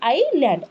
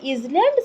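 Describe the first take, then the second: First: No z sound is spoken before the l. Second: A z sound is spoken before the l. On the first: The speaker calls it right. "ଏସ୍ ୱାର୍ଡଟା silent ରହୁଛି" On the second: The speaker calls it wrong. "ଆମେ କେବେ ଇଜଲ୍ୟାଣ୍ଡ ସେଇଟା କହିବା ନାହିଁ"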